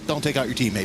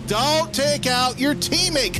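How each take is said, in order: First: It is said at a normal volume. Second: It is said loudly and forcefully.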